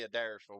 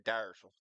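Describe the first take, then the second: First: The name begins with a sounded first vowel. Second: The name begins without the first vowel. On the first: This is how outsiders say the name. The speaker calls it wrong. "we don't say Adairsville" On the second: This is how locals say the name. The speaker calls it right. "We say Dyersville. The front A is silent"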